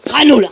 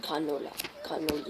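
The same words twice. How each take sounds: First: Loud, higher outburst; playful yell out of nowhere; sudden silly yell. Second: Chanted, very soft, low repeat; chanted, say it low under your breath; chanted, playful, hushed word to yourself; soft mumbled chant. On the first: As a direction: burst out with the word. Same word suddenly yelled. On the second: Silly word repeated softly. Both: Pretend.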